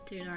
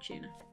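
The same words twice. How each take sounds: First: The word is said with an American pronunciation. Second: The word is said with a British pronunciation. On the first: This is how other people say it. "I don't say tuna... others say. Others being the Americans" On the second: This is how the speaker says it. "I say tuna... like Queen's English"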